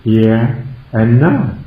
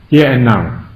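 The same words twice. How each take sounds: First: Here and now drawn out slowly, each word weighted; slow, emphatic here and now; stressed here and now. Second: Said in the usual way. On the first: Shown as a demonstration. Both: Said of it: "I will emphasize the words".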